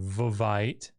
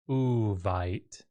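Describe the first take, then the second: First: The word begins with a v sound. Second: The word begins with a u vowel. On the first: The speaker calls it wrong. "Vavite sounds or is difficult to say" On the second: The speaker calls it right. "they say Uvite"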